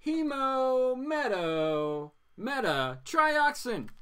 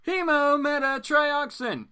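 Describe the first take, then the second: First: Hemometatrioxin drawn out very slowly, syllable by syllable, higher; word of the day. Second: Hemometatrioxin said high and slowly, tried out once; Hemometatrioxin, higher and slower, testing the tricky word; sounding out a word. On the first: Announcing the word of the day to viewers, very slow. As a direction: spell out Hemometatrioxin at a crawl like a teacher. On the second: Reading a strange medical word aloud, slowly. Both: Shown as a demonstration. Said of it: "That's our word of the day".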